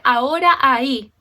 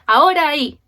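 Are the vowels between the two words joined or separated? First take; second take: separated; joined. First: The final and initial vowels are said separately. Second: The final and initial vowels merge into one. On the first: The speaker calls it wrong. "uno no dice ahora ahí" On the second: The speaker calls it right. "Uno dice ahora ahí. Y a esa última A del final es como que si se juntaran"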